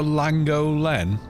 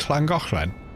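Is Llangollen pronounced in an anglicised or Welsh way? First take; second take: anglicised; Welsh. First: The name is pronounced with anglicised sounds. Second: The name is pronounced with Welsh sounds. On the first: The speaker is not Welsh. The speaker calls it wrong. "how bastardised you make our place names sound when you're not Welsh" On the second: The speaker is Welsh. The speaker calls it right. "Do you mean"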